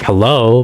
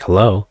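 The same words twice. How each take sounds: First: The greeting sounds impatient and irritated. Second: The greeting sounds calm and neutral.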